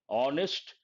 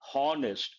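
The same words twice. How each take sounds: First: The word starts with no h sound. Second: The word starts with an audible h sound. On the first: The speaker calls it right. "her sound is silent" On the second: The speaker calls it wrong. "people mispronounce this word. They tend to say honest"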